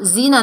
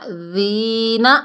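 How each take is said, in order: First: The first consonant is a hard j sound. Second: The first consonant is a soft dh sound. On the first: The speaker calls it wrong. "जीना नहीं पढ़ना" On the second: The speaker calls it right. "नरमी से जाल को पढ़ेंगे"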